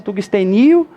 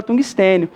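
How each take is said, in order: First: Tungstenio stressed on the NI, tungste-NI-o; wrong stress on NI. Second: Tungstênio stressed on TÊ, tungs-TÊ-nio. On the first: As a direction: shift the stress of tungstenio onto NI. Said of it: "a sílaba tônica aqui não é o ni". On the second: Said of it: "com acento no E". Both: Shown as a demonstration.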